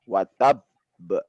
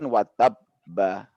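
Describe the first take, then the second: First: The final b is held, then bounced. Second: The final b runs on with a vowel. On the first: The speaker calls it right. "tapi watab ba" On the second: The speaker calls it wrong.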